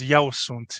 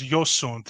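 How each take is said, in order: First: The pronoun sounds like 'eu', standard Romanian style. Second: The pronoun sounds like 'yo', Transylvanian style.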